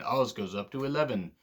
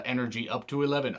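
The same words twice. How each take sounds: First: Put-on a lightly done, jokey British accent on "Oz goes up to eleven"; bad British accent. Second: Said in the usual way. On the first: Wrestling reviewer joking to viewers in a bad British accent. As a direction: put on a half-hearted British accent, like a joke for British friends. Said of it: "I promise to do plenty of other bad accents". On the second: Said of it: "I'm sorry to all my British friends".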